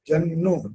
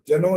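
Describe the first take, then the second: First: The n sound is held long, doubled. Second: The n sound is short, single. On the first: The speaker calls it right. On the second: The speaker calls it wrong. "जनो नहीं बोलना बस"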